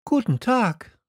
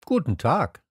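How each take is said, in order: First: Put-on high-pitched young greeting; light, high hello; Little Prince. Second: Less high answering greeting; lightly voiced railwayman's hello; switchman character. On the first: Prince greets the switchman, in a high voice. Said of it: "sagte der kleine Prinz". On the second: Switchman returns the prince's greeting, only slightly raised. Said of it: "sagte der Weichensteller". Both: A narrator's reading.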